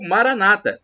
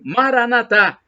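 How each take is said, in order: First: The stress is on the second-to-last syllable. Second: The stress is on the last syllable. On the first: This is how evangelical Protestants say it. "como dizem os evangélicos, protestantes, com a tônica na penúltima sílaba" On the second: This is how Catholics say it. "como dizem os católicos, como nós dizemos, com a tônica na última sílaba"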